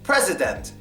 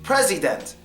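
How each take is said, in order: First: The middle vowel is a full, clear vowel. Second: The middle vowel is a full, clear vowel.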